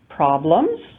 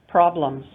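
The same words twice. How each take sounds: First: The pitch rises at the end of the word. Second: The pitch falls at the end of the word. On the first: It asks what the problem is. "just listen for the rising or falling intonation" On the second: It states that there is a problem. "just listen for the rising or falling intonation"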